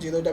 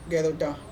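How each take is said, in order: First: The name begins with a J sound. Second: The name begins with a hard G sound. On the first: "कोई इसका pronunciation जीरोटा भी" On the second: "इसका सही pronunciation गेरोटा"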